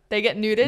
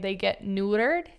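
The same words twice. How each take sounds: First: It is said in an Australian accent. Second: It is said in an American accent. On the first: "How would an Australian say neutered?" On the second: "I think Americans say they get neutered"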